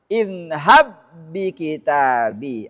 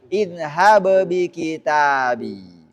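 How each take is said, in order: First: The two b sounds are merged into one. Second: The two b sounds are pronounced separately. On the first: The speaker calls it right. "Maka langsung masuk" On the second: The speaker calls it wrong. "nggak boleh lagi"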